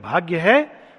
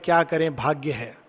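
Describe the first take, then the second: First: It is said smiling, in a cheerful tone. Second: It is said in a resigned, helpless tone.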